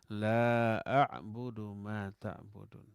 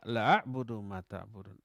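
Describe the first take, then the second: First: The first vowel is held long. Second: The first vowel is cut short. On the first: I do not worship what you worship. The speaker calls it right. "La-nya panjang. Dua harokat" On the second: I truly worship what you worship. The speaker calls it wrong. "Kalaulah dibaca pendek"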